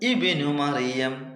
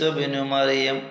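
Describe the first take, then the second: First: The opening vowel is pronounced at the start. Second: The opening vowel is dropped, joined to the previous word. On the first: "ഒറ്റക്കാകുമ്പോൾ" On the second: "നമ്മൾ കൂട്ടി ഓതുമ്പോൾ ഈസ ഇബ്നു മറിയം ഒന്നായി ഓതി"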